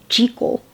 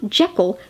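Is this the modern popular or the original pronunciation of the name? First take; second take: original; modern popular. First: The name is said the original way. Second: The name is said the modern, popular way. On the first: This is how the name was first meant to be said. The speaker calls it right. "the original pronunciation" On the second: This is how adaptations with sound came to say it. The speaker calls it wrong. "not Jekyll"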